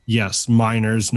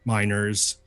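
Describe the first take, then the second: First: Miners said like minors; minors, stressed and slow; minors as underage. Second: Minors said plainly, as mine workers; minors, quick and light; minors as miners. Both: Shown as a demonstration. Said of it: "not minors".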